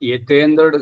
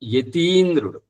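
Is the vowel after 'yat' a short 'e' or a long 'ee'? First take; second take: short e; long ee. First: The vowel after 'yat' is an 'e' sound. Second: The vowel after 'yat' is a long 'ee'. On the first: The speaker calls it wrong. "యతేంద్రుడు కాదమ్మా" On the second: The speaker calls it right.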